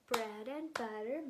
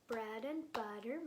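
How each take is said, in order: The two takes are said the same way.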